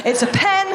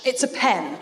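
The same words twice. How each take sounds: First: It's a pen, repeated higher with a laugh; insistent repeat. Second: Said in the usual way. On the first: Shown as a demonstration.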